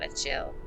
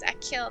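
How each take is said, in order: First: The middle consonant is a ch sound. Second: The middle consonant is a hard k sound. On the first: The speaker calls it wrong. "not a chill" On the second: The speaker calls it right. "pronounced like a kill"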